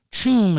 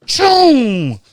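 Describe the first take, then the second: First: Said in the usual way. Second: Much higher, louder whoosh; loud landing sound effect. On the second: Retold or imitated. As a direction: shout the slide noise.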